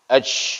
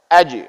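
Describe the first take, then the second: First: The final consonant ends with a strong puff of air. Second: The final consonant is bounced briefly without added air. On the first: The speaker calls it wrong. "kesalahan yang sering kita lakukan adalah kita terlalu menganginkan" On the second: The speaker calls it right. "Cukup sukunkan dan pantulkan saja. ... Jangan dianginkan"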